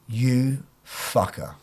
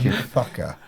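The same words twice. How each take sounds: First: It is said in a serious, unfriendly tone. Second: It is said in a happy, joking tone. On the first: The speaker means it seriously. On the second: The speaker is joking.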